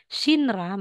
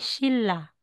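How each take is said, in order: First: The middle consonant is an n sound. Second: The middle consonant is a long l sound. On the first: The speaker calls it wrong. "instead na sasabihin Shinra" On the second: The speaker calls it right. "magiging Shilla"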